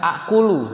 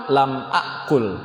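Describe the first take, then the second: First: "akulu" ending in an open u; original vowelled ending. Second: "akul" stopped on l, falling; sukun ending. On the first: Teacher giving the original form, "akulu" with final u. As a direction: sound the last u of "akulu". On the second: Teacher showing the verb after lam, "akul" without final vowel. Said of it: "maka sukun akhirnya". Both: Shown as a demonstration.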